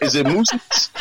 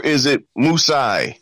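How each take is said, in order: First: MOOSES said as moose plus an -iz ending; MOOSES, the regular -es plural sounded out. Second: MOOSEI said MOOSE-eye; MOOSEI as plural. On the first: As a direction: ask it with MOOSES, two syllables ending in -iz. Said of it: "is mooses? Is it mooses or is it". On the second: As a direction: end MOOSEI on a long "eye" sound. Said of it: "I say it's moosei". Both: Shown as a demonstration.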